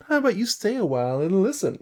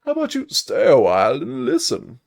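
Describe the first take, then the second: First: High, quick bard voice; high-pitched, showy bard; playful bard invitation. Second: Put-on high, loud, swooping old storyteller; hammed-up, loud game-sage impression; Deckard Cain. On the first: Acted. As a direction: toss out a brisk, lilting invitation. Voicing the bard's line, first take. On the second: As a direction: draw the line out with big theatrical swoops. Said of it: "Hold on, Deckard Cain".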